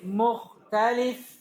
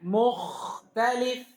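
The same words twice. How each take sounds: First: The kh sound is firm but not rasping. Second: The kh sound is pressed hard into a rasp. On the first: The speaker calls it right. "Contoh kedua" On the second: The speaker calls it wrong. "Tidak boleh berlebihan"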